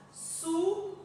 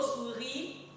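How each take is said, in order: First: Teacher splitting "Souris" into "sou" and "ri"; syllable by syllable. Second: Said in the usual way. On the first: Shown as a demonstration. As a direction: sound out "Souris" in two separate beats. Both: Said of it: "on le lit syllabe par syllabe".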